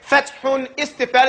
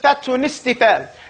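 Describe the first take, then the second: First: The two words are kept separate. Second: The ending sound carries into the next word. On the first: "Instead of saying fathun istifal" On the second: "it says fathun istifal. It's called naql"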